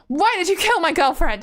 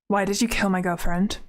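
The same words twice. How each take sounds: First: It is delivered in an exaggerated, over-the-top way. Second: It is delivered in a restrained, natural way.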